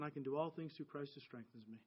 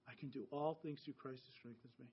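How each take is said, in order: First: Soft, hushed repeated prayer; murmured prayer. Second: Even softer repeat of the verse; quieter murmured prayer. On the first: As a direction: murmur the verse to yourself, barely voiced. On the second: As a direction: let the prayer fade almost to nothing. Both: Retold or imitated. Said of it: "I just kept repeating".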